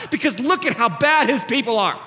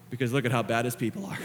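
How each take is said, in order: First: Emphatic, raised-pitch complaint; critic's indignation. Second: Soft, low, ending in a chuckle; humbled wonder. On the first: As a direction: argue it like an indignant sceptic. Critic's version, contrasted with his own. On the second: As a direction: say it low and gently amused. Same words turned into grateful wonder. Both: Acted.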